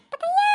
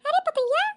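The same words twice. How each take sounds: First: Louder, higher call of her name; shouting her name. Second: Loud rising call to wake someone. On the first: Grandmother shouting the sleeping girl's name again, louder and higher. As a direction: yell the name so she finally wakes. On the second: Grandmother calling the sleeping girl awake, a loud rising call. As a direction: call her name up high to rouse her. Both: Acted. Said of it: "कौन है सुबह सुबह चिल्लाए जा रहा है".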